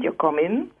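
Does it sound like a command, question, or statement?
statement. It is said as a plain statement.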